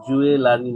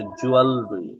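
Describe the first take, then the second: First: জুয়েলারি as "ju-e-la-ri"; জুয়েলারি with a clear "la"; wrong pronunciation. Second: জুয়েলারি as "JOO-al-ri"; জুয়েলারি without the middle "la"; correct pronunciation. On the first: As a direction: say জুয়েলারি in four full syllables. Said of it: "জুয়েলারি না এটা". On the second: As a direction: squeeze জুয়েলারি to "jual-ri", falling. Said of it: "এটার উচ্চারণ হচ্ছে জুয়েলারি". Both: Shown as a demonstration.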